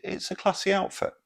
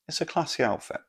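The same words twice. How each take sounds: First: "classy" said high and posh, as a joke; mock posh. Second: "classy" repeated, still raised but nearer normal; lighter posh echo. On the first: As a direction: raise the voice high on "classy outfit". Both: Shown as a demonstration.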